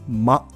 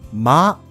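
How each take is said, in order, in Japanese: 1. 母音は短く、もっと奥寄りで、くぐもっています。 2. 母音は素直で、開いていて、はっきりしています。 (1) "母音が短くちょっと奥に入ってくぐもったような感じ" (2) "まではなく"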